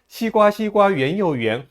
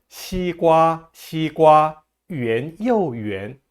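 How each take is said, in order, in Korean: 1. 빠른 속도로 읽어요. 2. 느린 속도로 읽어요. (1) "빠르게 읽어볼까요?" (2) "우리 천천히 한번 해봅시다"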